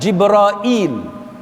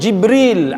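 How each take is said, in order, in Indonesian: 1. Nama ini berakhir dengan bunyi -ail. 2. Nama ini berakhir dengan bunyi -il yang pendek. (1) "orang-orang Najd, Tamim dan sebagainya, dia baca dengan Jibrail" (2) "orang-orang Hijaz dia sebut Jibril"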